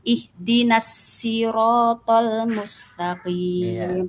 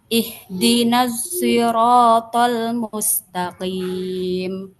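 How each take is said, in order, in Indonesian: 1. Sirat diawali dengan bunyi s yang biasa dan ringan. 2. Sirat diawali dengan bunyi s yang condong ke z. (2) "bi ismam sod zayan"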